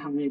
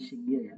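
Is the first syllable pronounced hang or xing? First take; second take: hang; xing. First: The first syllable is pronounced hang. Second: The first syllable is pronounced xing. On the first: The speaker calls it right. "ini dibacanya 行业" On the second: The speaker calls it wrong. "bukan 行业"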